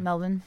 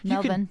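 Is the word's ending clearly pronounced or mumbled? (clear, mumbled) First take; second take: mumbled; clear. First: The ending is mumbled and reduced. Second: The ending is pronounced fully and clearly. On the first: The speaker calls it right. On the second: The speaker calls it wrong. "I forgot to mumble"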